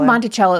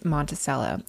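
First: The name is said the standard way. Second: The name is said the Florida local way. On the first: This is how people generally say it. "the real way people say it" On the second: This is how locals in Florida say it. "in Florida, it's Monticello"

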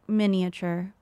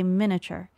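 First: The middle i sound is pronounced. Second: The middle i sound is dropped. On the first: This is how others say it. "I think I've heard it miniature" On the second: This is how the speaker says it. "I think I say miniature"

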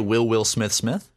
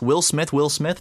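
First: The pitch rises at the end like a question. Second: The pitch falls at the end like a statement. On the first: It is asked as a question. "That's a question" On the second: It is stated as a plain sentence. "that's a sentence"

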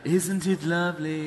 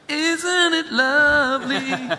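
First: It is said in a flat monotone. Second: It is said with lively, varied pitch.

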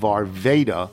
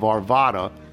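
First: The middle vowel is a long A. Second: The middle vowel is a soft A. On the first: "the long A of Arvada" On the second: "the soft A of Arvada"

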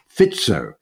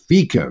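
First: The c is sounded as ts. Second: The c is sounded without a ts sound. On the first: The speaker calls it right. "It turns out his name is actually pronounced Robert Fico" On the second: The speaker calls it wrong. "we were referring to the new or the about to be new prime minister as Robert Fico"

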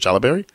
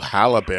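First: The word begins with a J sound. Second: The word begins with an H sound. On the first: The speaker calls it wrong. "Is that how you say it?" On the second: The speaker calls it right. "I'm so sorry"

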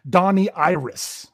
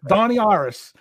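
First: It is said in standard English. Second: It is said in a Pittsburgh Yinzer accent.

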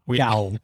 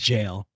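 First: The word begins with a hard G sound. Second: The word begins with a J sound. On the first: The speaker calls it wrong. "My dumbass said gowl" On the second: The speaker calls it right. "pronounced jail"

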